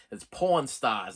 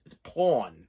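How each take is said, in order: First: "porn" with no r, like pawn; Boston pronunciation. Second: "porn" said as Boston "pawn", no r; Boston pronunciation. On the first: Explaining his Boston accent, slow Boston "porn". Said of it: "I pronounce the word porn wrong". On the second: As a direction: drop the r in "porn". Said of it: "my Boston accent there is like". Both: Shown as a demonstration.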